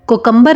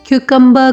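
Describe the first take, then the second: First: The first syllable sounds like 'ko'. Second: The first syllable sounds like 'kyoo'. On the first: The speaker calls it wrong. "कोकम्बर नहीं" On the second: The speaker calls it right. "क्यूकम्बर कहा जाता है"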